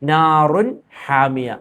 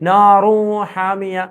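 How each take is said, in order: First: The n sound is pronounced clearly. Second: The n sound is dropped and merged. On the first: The speaker calls it right. "വെളിവാക്കി ഉച്ചരിക്കണം. അവിടെ മണിക്കാനോ കൂട്ടിച്ചേർക്കാനോ പാടില്ല" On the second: The speaker calls it wrong. "അങ്ങനെ മണിക്കാനോ അങ്ങനെയുള്ള പരിപാടിക്കൊന്നും നിൽക്കാൻ പാടില്ല"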